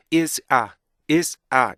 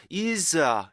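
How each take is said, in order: First: IS A with a brief stop between IS and A; stop between words. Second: IS A drawn out as one slurred word; wrongly run together. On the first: Teacher modelling for students, IS A crisply separated. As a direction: cut IS short, then say A separately. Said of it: "이렇게 해야 되는데". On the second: Teacher copying students' mistake, IS A run together. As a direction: let IS slide straight into A without a stop. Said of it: "이거를 is a 이렇게 하잖아요". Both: Shown as a demonstration.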